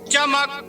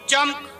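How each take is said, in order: First: A vowel comes before the final k. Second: The final k has no vowel before it. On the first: The speaker calls it right. "इस वजह से हम इस लफ्ज को इस तरह पढ़ेंगे" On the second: The speaker calls it wrong. "काफ साकिन चमक। पर इस तरह पढ़ना गलत है"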